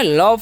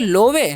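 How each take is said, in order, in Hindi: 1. इसे एक अक्षर में बोला जाता है, luv। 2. इसे दो अक्षरों में बोला जाता है, lo-ve। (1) "लव पढ़ना है। ओ का उच्चारण यहाँ पर अ करना है।" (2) "लोवे नहीं"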